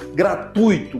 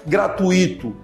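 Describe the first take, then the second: First: The stress falls on tui as one syllable. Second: The stress falls on a separate i syllable. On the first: The speaker calls it right. "Fala a segunda sílaba junto" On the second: The speaker calls it wrong. "Nunca gratuito. Isso configura um erro"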